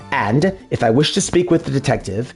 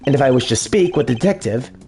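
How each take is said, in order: First: The line is read more slowly. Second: The line is read quickly. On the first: The speaker calls it right. "I need to slow down" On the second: The speaker calls it wrong. "I'm reading too fast already"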